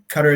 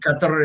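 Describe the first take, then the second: First: It is said with ordinary English sounds. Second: It is said with Arabic sounds. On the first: The speaker calls it wrong. "we sort of all pronounce the country wrong" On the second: The speaker calls it right. "the way to say it correctly in Arabic"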